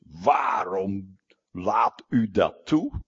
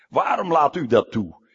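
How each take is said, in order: First: Slow, drawn-out plea as Jonah; angry Jonah. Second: Louder angry outcry as Jonah. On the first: Jonah complains to God, slow and sulky. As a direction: Jonah sulking at God, dragging the question out. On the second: Jonah shouts at God about his tree, angry. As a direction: Jonah hurls the question at God. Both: Retold or imitated. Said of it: "Jona vreselijk boos".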